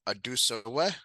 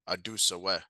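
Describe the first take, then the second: First: The voice rises at the end like a question. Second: The voice stays level to the end. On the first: The tune marks it as a question. The speaker calls it wrong. "My my voice kind of goes up and it makes that question" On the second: The words alone mark it as a question. The speaker calls it right. "So that would be a question"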